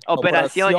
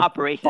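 First: The word is pronounced with Spanish sounds. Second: The word is pronounced with English sounds. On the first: The speaker calls it right. "The Spanish term for operation" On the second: The speaker calls it wrong. "we've been saying it wrong. It's not operation"

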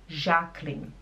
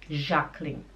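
The two takes are said the same way.

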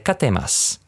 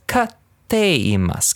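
First: It flows on without a pause after ka. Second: There is a two-beat pause after ka. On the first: The speaker calls it wrong. "you don't just say katte imasu" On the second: The speaker calls it right. "Give it like two beats after the ka"

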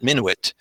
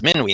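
First: The name is said with English pronunciation. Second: The name is said with French pronunciation. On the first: The speaker calls it wrong. "not Minuit" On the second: The speaker calls it right. "it's pronounced Minuit ... Minuit is the word for midnight in French"

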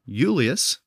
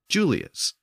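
First: The word begins with a Y sound. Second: The word begins with a J sound. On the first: This is the older Latin form. "the Y sound began to shift to a brand new J sound" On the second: This is the later changed form.

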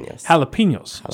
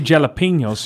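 First: The word starts with an H sound. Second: The word starts with a hard J sound. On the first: The speaker calls it right. "you say jalapenos" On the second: The speaker calls it wrong. "But you don't say jalapenos"

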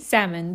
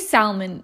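First: The L sound is silent in the word. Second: The L sound is pronounced in the word. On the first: The speaker calls it right. "Say salmon. The L is silent" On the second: The speaker calls it wrong. "don't say salmon"

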